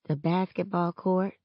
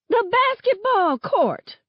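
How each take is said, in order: First: It is mumbled quietly. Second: It is said loudly.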